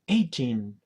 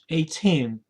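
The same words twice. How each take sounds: First: The stress is on the first syllable. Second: The stress is on the last syllable. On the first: The speaker calls it right. "you don't have to stress on teen" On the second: The speaker calls it wrong. "and not eighteen"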